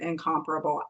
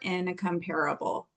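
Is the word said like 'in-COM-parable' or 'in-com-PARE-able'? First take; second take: in-COM-parable; in-com-PARE-able. First: The stress falls on the syllable 'com'. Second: It is said like 'compare' plus 'able'. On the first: The speaker calls it right. "you're supposed to pronounce it incomparable" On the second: The speaker calls it wrong. "I think that's dumb"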